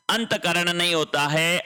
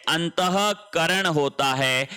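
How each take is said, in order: First: अंतकरण said without the visarga breath; wrong spelling said. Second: अंतःकरण slowed, with a clear breathy ह after अंत; correct visarga. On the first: Teacher showing the wrong spelling, plain reading. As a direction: say अंतकरण as the student's mistaken form, no ह sound. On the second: Teacher correcting students' spelling, slow careful pronunciation. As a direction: slowly sound the visarga in अंतःकरण as अंतह-करण. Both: Shown as a demonstration.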